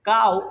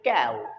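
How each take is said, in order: First: The vowel begins with an open 'ah' sound. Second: The vowel begins with a front 'a' sound. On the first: The speaker calls it wrong. "কাউ একটা ভুল উচ্চারণ" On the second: The speaker calls it right. "এটাকে বলে ক্যাও"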